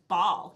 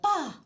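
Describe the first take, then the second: First: The final L sound is pronounced. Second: The final L sound is dropped. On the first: An adult corrects the baby. The speaker calls it right. "it's ball. You're saying it wrong" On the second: A baby is trying to say the word. The speaker calls it wrong. "they're trying to say ball, they're like"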